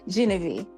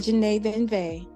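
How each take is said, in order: First: The name sounds like the common name Genevieve. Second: The name sounds like Janae Venve. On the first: The speaker calls it wrong. "a lot of people pronounce it Genevieve" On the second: The speaker calls it right. "but it's the Janae Venve"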